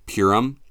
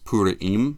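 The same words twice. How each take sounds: First: It is pronounced another American way. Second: It is pronounced the non-American way. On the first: This is how people in America say it. The speaker calls it wrong. "or Purim" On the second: This is the proper way to say it. The speaker calls it right. "but it's Purim"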